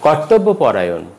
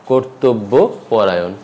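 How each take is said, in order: First: কর্তব্যপরায়ণ starting "kawr-tawb-bo"; open first vowels. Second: কর্তব্যপরায়ণ slowly as "kor-tob-bo porayon"; কর্তব্যপরায়ণ broken slowly into syllables; rounded vowels. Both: Shown as a demonstration. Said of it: "উচ্চারণটি হবে".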